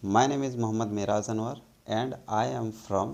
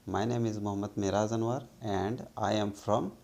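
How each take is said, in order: Both takes have the same delivery.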